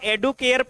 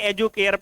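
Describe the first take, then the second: First: The consonant after the first vowel is a 'd'. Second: The consonant after the first vowel is a 'j'. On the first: "बहुत लोग इसको एडुकेयर पढ़ लेते हैं" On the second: "एजुकेयर पढ़ें"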